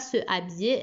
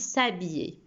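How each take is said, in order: First: The vowel of se is fully pronounced. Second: The vowel of se is dropped and linked. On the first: The speaker calls it wrong. "On ne dit pas" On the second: The speaker calls it right. "mais on dit"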